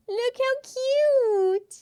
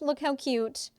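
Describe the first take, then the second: First: Much higher, slow gushing coo; drawn-out high cutesy voice; baby-talk coo. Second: Said in the usual way. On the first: Shown as a demonstration. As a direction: squeal it like cooing at a baby. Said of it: "repeated in baby voice". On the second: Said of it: "showing the sticker".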